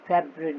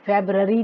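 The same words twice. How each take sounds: First: फरवरी as English FEB-ree, shortened; silent middle R. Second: फरवरी as English FEB-ra-ree, R sounded; every syllable of February sounded out in फरवरी; middle R pronounced. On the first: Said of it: "आर बीच में silent है". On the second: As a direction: mispronounce फरवरी with a full middle R. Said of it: "फरवरी नहीं बोलते हैं". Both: Shown as a demonstration.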